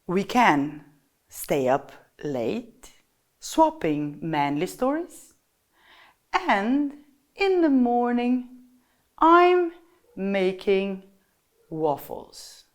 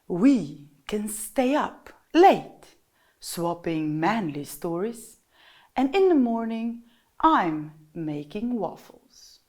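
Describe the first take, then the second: First: It is spoken at a noticeably slowed-down pace. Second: It is spoken softly and gently, like a lover. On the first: "First one is to slow down" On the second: "the donkey has this soft-spoken voice, the voice of a lover"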